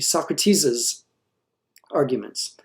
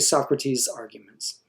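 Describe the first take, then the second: First: An extra 'iz' syllable follows the name. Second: No extra syllable follows the name. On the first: The speaker calls it wrong. "listen to it if I add an apostrophe s" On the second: The speaker calls it right. "So we would just say"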